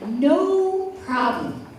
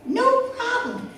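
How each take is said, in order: First: Said in the usual way. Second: "no problem" much higher, eager and bouncy; bright eager repeat. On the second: Retold or imitated. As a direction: lift it high to sell the offer. Mom's repeated reassurance.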